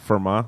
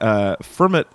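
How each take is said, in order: First: The name is said not rhyming with Kermit. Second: The name is said to rhyme with Kermit. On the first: The speaker calls it right. "That makes more sense" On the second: The speaker calls it wrong. "So it rhymes like with Kermit"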